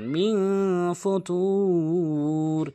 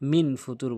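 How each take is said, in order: First: The n is hidden with a nasal hum. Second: The n is pronounced clearly before the t. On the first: The speaker calls it right. "এখানে ইকফা গুন্না করবেন" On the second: The speaker calls it wrong. "এখানে মিন ফুতুর বলে"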